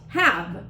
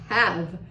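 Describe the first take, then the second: First: "have" said as the student heard it; a lower, reduced "have". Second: "have" said low, without the H, as "av"; "have" softened to "av"; reduced have. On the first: Teacher repeating the word the student thought she heard. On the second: Teacher showing how "have" really sounds in the clip. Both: Shown as a demonstration. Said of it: "not actually have".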